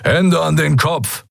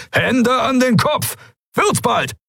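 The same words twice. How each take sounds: First: Higher, slow, stern pirate order; a hint of a gruff pirate command; demanding pirate. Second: Much higher, slow, piercing shouted command; shrill yell. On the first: Pirate orders the newcomers to raise their hands, stern demand. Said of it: "forderte ein dunkelhäutiger Mensch". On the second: The pirate yells the order through the whole hangar, piercing shout. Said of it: "Der Befehl gellte durch den Hangar". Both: A narrator's reading.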